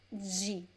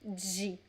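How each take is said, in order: First: It starts with a 'j' sound and an 'ee' vowel. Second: It starts with a 'j' sound and an 'ee' vowel.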